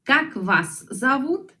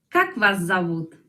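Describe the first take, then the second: First: Как вас зовут slow, stress on как, rising at the end; slow model question. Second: Said in the usual way. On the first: Shown as a demonstration. (pregunta modelo lenta)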